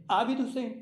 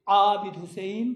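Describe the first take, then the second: First: Said in the usual way. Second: "عابد Hussain" with a strong, drawn ain from the throat; throaty Arabic ain. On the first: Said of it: "الف اور عین میں فرق نہیں کرتے". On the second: Shown as a demonstration. Teacher shows what nobody says, heavy throaty ain. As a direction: say "عابد" with a heavy pharyngeal start. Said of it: "نہیں کہتا کوئی".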